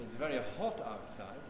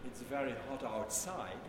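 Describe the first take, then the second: First: "hot" stressed, a rise on "outside". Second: "very" stressed, "hot outside" falling away. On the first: Teacher showing the class a different meaning, stress on "hot". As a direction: hit "hot", then lift "outside". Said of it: "When I say, it's a different meaning". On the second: Teacher showing the class how an accent shifts meaning, stress on "very". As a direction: lean on "very" in "It's very hot outside". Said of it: "When I say". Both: Shown as a demonstration.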